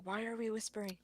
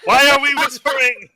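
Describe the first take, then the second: First: Hushed, puzzled stage whisper. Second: Very high, very loud would-be whisper; loud mock whisper. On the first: Acted. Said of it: "Imogen starts whispering too". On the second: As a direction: blurt the question out at full, squeaky volume. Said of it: "So it's just like".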